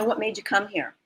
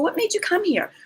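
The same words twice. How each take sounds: First: It is asked in a flat, uninterested way. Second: It is asked in a warm, curious way.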